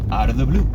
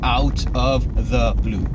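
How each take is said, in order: First: 'Out of the' is reduced to 'outa da'. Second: Each word is said fully and separately. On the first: The speaker calls it right. "it's going to sound something like this" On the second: The speaker calls it wrong. "we won't say out of the blue"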